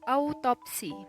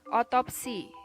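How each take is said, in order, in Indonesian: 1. Kata ini diawali dengan diftong au. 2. Kata ini diawali dengan o biasa. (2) "diftong au diucapkan menjadi o"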